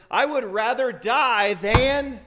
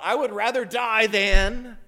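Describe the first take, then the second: First: Higher, loud and slow, breaking off; a passionate debater cutting himself short; worked-up declaration that stops mid-thought; fiery outburst. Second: Fiery outburst. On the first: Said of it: "He's getting all worked up". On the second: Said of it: "as if he stops his thought". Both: Retold or imitated.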